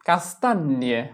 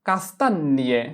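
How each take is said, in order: No difference in how they are said.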